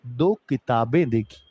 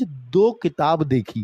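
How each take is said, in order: First: "दो किताबें देखी" lower, as the correction; corrected plural form. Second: "दो किताब देखी" said slowly as the mistake; wrong singular form. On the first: Teacher correcting the wrong example, low settled correction. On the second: Teacher showing children the mistake, wrong form demonstrated slowly. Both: Shown as a demonstration. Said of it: "गलत".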